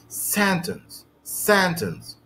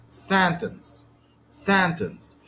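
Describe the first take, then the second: The two takes are said the same way.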